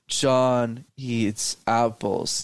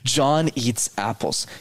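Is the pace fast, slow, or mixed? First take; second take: slow; mixed. First: It is said too slowly throughout. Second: It mixes quick and slow parts.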